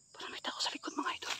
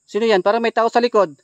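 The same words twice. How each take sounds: First: Hushed, tense whisper. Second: Loud alarmed cry, someone's behind; startled shout. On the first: Telling viewers someone is behind, frightened whisper. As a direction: whisper so nothing behind hears. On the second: Gamer startled by a figure behind him, loud alarmed cry. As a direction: blurt it out loud in fright. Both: Real, not acted.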